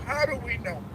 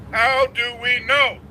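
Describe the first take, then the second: First: Said in the usual way. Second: "How do we know?" louder and slower, each word leaned on; emphatic repeat. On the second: Real, not acted. Lecturer repeating the question to his audience, loud and slow. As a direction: drive "How do we know?" home, loud and deliberate.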